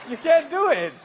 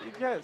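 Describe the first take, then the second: First: Laughing insist. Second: Said in the usual way. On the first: Real, not acted. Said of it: "laughing insistence". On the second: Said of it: "calm restatement".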